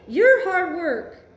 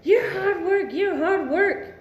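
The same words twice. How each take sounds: First: "you're" pushed slow and louder, turned back on him; stress on you're. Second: Mock accusation. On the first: Retold or imitated. Answering the partner, stress on "you're". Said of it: "No, honey". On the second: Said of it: "He wants to tell you".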